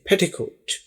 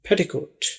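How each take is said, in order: First: The word is said with an English accent. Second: The word is said with an English accent.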